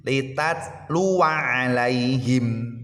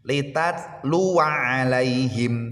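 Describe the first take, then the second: No difference in how they are said.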